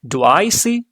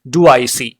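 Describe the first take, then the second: First: It is said with a curious, questioning tone. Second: It is said flatly, like a robot.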